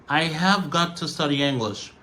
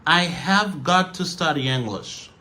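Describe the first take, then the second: Both takes have the same delivery.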